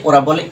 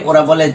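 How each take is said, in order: No difference in how they are said.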